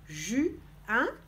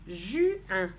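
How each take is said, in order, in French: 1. Les deux syllabes sont prononcées séparément, avec une pause. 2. Les deux syllabes sont liées, sans pause.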